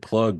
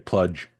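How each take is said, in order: First: The word ends with a hard g sound. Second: The word ends with a soft j sound. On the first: This is the standard pronunciation. "instead of saying plug" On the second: This is how people with the regional accent say it. "they'll say pludge"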